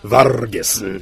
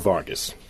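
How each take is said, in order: First: The R is rolled with a trill. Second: The R is said plainly, not rolled.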